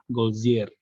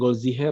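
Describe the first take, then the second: First: The h in the middle is silent. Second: The h in the middle is pronounced. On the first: The speaker calls it right. "nggak dibaca kalau di tengah, Golzier gitu aja" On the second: The speaker calls it wrong. "bacanya bukan Golziher ya"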